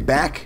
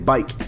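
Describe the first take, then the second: First: The vowel is a short 'a' sound. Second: The vowel is a long 'i' sound. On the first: "instead of saying back" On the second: "people say bike"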